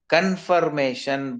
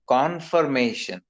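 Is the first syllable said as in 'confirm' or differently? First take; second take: as in confirm; differently. First: The first syllable sounds like 'con' in confirm. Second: The first syllable has a changed vowel sound. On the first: The speaker calls it wrong. "it is not confirmation" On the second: The speaker calls it right. "but confirmation. Con. The first sound changes"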